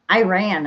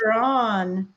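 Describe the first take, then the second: First: Iran said as "eye-ran", long open I; Minnesota accent. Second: Iran with short i and open ah; corrected pronunciation. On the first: Retold or imitated. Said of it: "That's my Minnesota accent". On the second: Shown as a demonstration. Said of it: "I was corrected".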